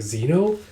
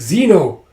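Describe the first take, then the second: First: Name rising into a question; puzzled query. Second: High, loud name-call; acted exclamation. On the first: Acted. Companion questions the dragon's claim, puzzled rise. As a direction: ask ZENO with a high rising end. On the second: Companion reacts to the revelation, loud exclamation. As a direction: cry ZENO out, falling at the end.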